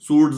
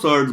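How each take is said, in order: First: The first vowel is a long 'oo' sound. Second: The first vowel is an 'er' sound. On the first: The speaker calls it wrong. "सूड्स नहीं बोलते हैं उसको" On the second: The speaker calls it right. "सर्ड्स बोलते हैं"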